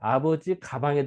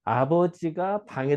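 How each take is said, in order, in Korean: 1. 끊는 곳은 첫 번째 단어 바로 뒤입니다. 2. 끊는 곳은 주격 조사 뒤입니다. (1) "여기서 끊으면 어때?" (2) "이렇게 읽어야 되는데"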